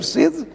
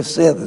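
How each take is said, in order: First: "sede" with closed first e, like SAY-d. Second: "sede" with open first e, like SEH-d. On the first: Linguist contrasts thirst with headquarters, closed e in "sede". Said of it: "é fechado, perdão". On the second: Linguist names an institution's seat, open e in "sede". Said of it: "é aberto". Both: Shown as a demonstration.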